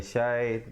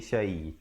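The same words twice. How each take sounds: First: The sh sound is said harshly. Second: The sh sound is said softly. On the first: The speaker calls it wrong. "bukan syai" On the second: The speaker calls it right. "syai dibacakan dengan lembut di situ"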